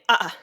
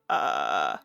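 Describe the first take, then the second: First: The vowel is broken by a quick glottal catch. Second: The vowel is said in a low creaky voice. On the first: "with a little bit of a stop in between" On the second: "some people might identify as creaky"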